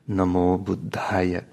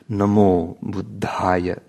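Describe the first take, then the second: First: It is said with the Indic Pali pronunciation. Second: The same.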